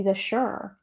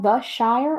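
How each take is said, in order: First: Shire clipped to a short sher. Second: Shire said as SHY-er, with a long two-beat vowel. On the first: Host asking which is right, second version said sher. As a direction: say Shire with a quick shur sound. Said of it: "or is it supposed to be". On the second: Host asking which is right, first version said SHY-er. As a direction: say Shire to rhyme with fire. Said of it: "is it really even supposed to be called". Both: Shown as a demonstration.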